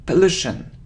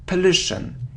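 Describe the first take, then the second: First: The first vowel is a weak 'a' sound. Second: The same.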